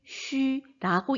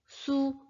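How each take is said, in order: First: The vowel is a rounded front 'ü' sound. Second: The vowel is a plain back 'oo' sound. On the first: The speaker calls it right. "발음은 동일하게 쥐, 취, 쉬라고 읽어주셔야 됩니다" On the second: The speaker calls it wrong. "무언가에 이끌린 것처럼 이렇게 발음을 합니다. 그런데 그런 발음은 없다고"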